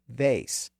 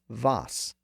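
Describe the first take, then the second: First: The vowel is an 'ay' sound. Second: The vowel is an open 'ah' sound. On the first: This is the later raised pronunciation. "The vowel was eventually raised to vase" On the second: This is the original borrowed pronunciation. "presumably as vase"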